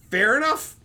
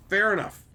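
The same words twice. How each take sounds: First: "Fair enough" high and loud, rising at the end; "Fair enough" pitched up with a rise; questioning concession. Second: "Fair enough" with a falling end; "Fair enough" as a settled statement; settled concession. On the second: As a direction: bring "enough" down to close the matter. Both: Real, not acted.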